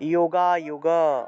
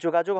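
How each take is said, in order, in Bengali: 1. এটি সংস্কৃত ধাঁচে উচ্চারিত হয়। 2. এটি বাংলা ধাঁচে উচ্চারিত হয়। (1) "উচ্চারণটা হবে" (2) "আমরা যোগাযোগ বলে ফেলি না বাংলায়, যোগাযোগ হবে না"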